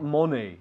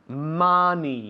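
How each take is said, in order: First: The first vowel is not a short 'ah'. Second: The first vowel sounds like a short 'ah'. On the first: The speaker calls it wrong. "not money" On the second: The speaker calls it right. "Money, money, money"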